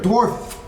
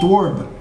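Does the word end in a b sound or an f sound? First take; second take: f sound; b sound. First: The word ends with a clear f sound. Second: The word ends with a b sound. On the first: The speaker calls it right. "you've got to enunciate the word dwarf. Couldn't hear it" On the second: The speaker calls it wrong. "Otherwise they think it's dwarb"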